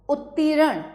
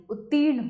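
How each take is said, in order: First: उत्तीर्ण broken up as "ut-tee-ran"; higher उत्तीर्ण in three syllables; wrong extra vowel. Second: Said in the usual way. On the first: Shown as a demonstration. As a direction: add a vowel between r and n in उत्तीर्ण. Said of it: "नहीं, उत्तीर्ण होता है". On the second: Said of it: "उत्तीर्ण होता है".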